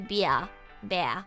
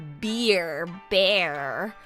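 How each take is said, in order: First: It is said in an Australian accent. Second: It is said in an American accent. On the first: "We say" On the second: "in America they say"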